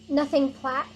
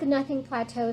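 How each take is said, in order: First: The name is one syllable rhyming with splat. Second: The name ends with an 'oh' sound, like plateau. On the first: It is the listed correct pronunciation. The speaker calls it right. "It just rhymes with splat" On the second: It sounds cooler. The speaker calls it wrong. "I think nothing plateau sounds good"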